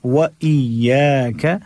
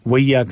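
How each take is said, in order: First: Slow व इय्याक with "wa", then a clear "iy"; separate wa. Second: Quick व इय्याक merged as "waiyyaka"; wrong run-together reading. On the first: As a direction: part व from इय्याक and hold the य्य. (व इय्याक में इ अलग और साफ़) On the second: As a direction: slur व into इय्याक. (व इय्याक मिलाकर जल्दी पढ़ना) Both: Shown as a demonstration. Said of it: "व इय्याक नहीं".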